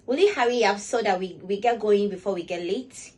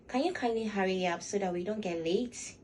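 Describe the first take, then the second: First: Loud, pushy hurry-up to a friend; loud impatient version to a dawdling friend; harsh impatient demand. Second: Polite request. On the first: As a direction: snap at a late friend. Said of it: "My tone of voice". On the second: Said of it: "you get to see the difference". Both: Shown as a demonstration.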